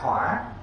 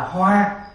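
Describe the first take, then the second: First: The tone dips down then rises. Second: The tone stays level and flat. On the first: Fire or flaring up. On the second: A flower.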